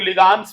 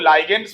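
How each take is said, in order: First: The first syllable is 'lig', then 'ands'. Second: The first syllable sounds like 'lie'. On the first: "बहुत लोग लिगांड्स बोलने लगते हैं" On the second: "बहुत लोग लाइगेंड्स भी बोलते हैं, गलत बोलते हैं"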